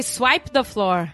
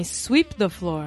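First: Slow "Swipe the floor", vowel as in "ripe"; mispronounced SWIPE. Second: Slow, corrective "sweep the floor", vowel as in "deep"; corrected SWEEP. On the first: Mother retelling her English slip to friends, "Swipe" said with a long "eye". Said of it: "eu falei que a esfregar o chão era". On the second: Daughter correcting her mother's English, retold, "sweep" with long "ee". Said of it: "Não, mãe, sweep the floor". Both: Retold or imitated.

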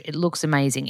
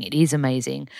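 First: Said in the usual way. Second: Nadruk op "is"; stress on IS. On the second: Shown as a demonstration. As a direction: lean on "is" to insist it really is amazing.

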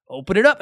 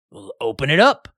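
First: Loud insistent repeat, pitch up; louder, higher repeat. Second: Loud, pushy order to open it; loud sheriff order. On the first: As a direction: push harder the second time. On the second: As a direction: bark it like a small-town sheriff. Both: Retold or imitated. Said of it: "The sheriff's like".

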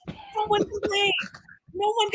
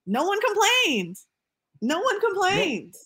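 First: Mock outrage. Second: Emphatic disbelief. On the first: Mock outrage about Slutty Vegan. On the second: Repeated emphatic point. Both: Real, not acted.

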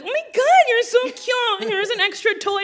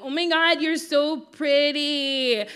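First: Gushing drive-thru worker. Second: Put-on higher, slow, sugary kid compliment; imitating herself as a kid. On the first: Retold or imitated. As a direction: squeal it like a charmed cashier. Worker gushing back at child. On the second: Little girl leaning over mom's lap flattering the worker, higher and slow. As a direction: lay it on thick like a child angling for a toy.

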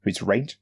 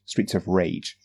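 First: "Rage" lifted as a question; doubtful check, rising on "Rage". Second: Said in the usual way. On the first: Real, not acted. Checks own slipped pronunciation.

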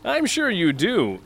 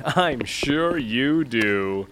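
First: Said in the usual way. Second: Drawn out, very slow and dismissive; slow, lofty brush-off; slow dismissive repeat. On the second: Acted. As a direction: stretch it out with disdain. Snubbing the lackey, drawn out.

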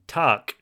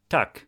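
First: "takk" with a long drawn vowel; long-vowel "takk", meaning roof; long wrong takk. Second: "takk" short and clipped, Norwegian for thanks; short-vowel Norwegian "takk". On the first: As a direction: stretch the vowel of "takk", like "tahrk". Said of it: "but he was saying". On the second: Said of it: "thank you in Norwegian is". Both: Shown as a demonstration.

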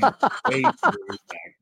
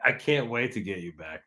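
First: High, creepy stage whisper; mock-menacing whisper. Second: Said in the usual way. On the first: Friend promising payback to host, playful menacing whisper. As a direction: hiss it as a playful threat. Playful threat repeated in odd voice.

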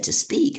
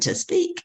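First: Said in the usual way. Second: High, rising astonished question; incredulous echo. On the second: Retold or imitated. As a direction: echo it back, voice climbing in disbelief. Echoing the offer in disbelief.

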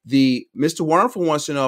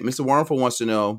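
First: Slower, higher-pitched replay; slow it down for the listeners; deliberate restatement at a slower pace. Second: Quick, hurried delivery; rattled off quickly; talking fast. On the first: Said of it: "I gotta slow this down and play it back". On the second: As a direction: rush through it under time pressure. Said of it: "I'm talking fast". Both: Real, not acted.

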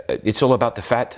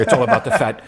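First: Said in the usual way. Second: Put-on light South African accent, laughing; a hint of South African. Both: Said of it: "I try to do the South African accent here".

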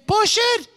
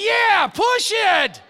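First: High, urgent call from the passenger seat; the driver blurting out an instruction, pitched well up; voicing the Ugandan driver. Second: High, slow, loud shout; exasperated shout. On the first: Passenger telling preacher how to work the extinguisher, pitched up high. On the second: Retold or imitated. Preacher yelling back at his passenger in the muddy car, loud and slow. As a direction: yell it slowly, drawn out and fed up.

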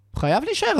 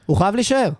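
First: High insistent repeat. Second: Said in the usual way. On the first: Real, not acted. Fan insisting to co-hosts the player must stay, pitched up high. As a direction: pitch jumps much higher, insisting.

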